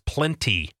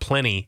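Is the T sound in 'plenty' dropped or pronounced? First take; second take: pronounced; dropped. First: The T sound in the middle is pronounced. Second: The T sound in the middle is dropped. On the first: The speaker calls it right. "it's plenty" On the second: The speaker calls it wrong. "people who don't pronounce the letter T. It's not plenty"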